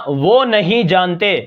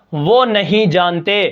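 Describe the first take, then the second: No difference in how they are said.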